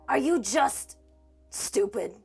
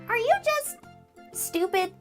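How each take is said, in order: First: It is said in the actor's normal voice. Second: It is said in a high Mickey Mouse voice.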